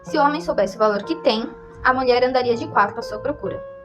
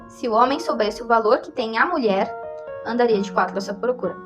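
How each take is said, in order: First: The pause falls right after the word 'tem'. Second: The pause falls right after the word 'mulher'. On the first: The woman would search for the man. "viu onde tem as vírgulas?" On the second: The man would search for the woman. "viu onde tem as vírgulas?"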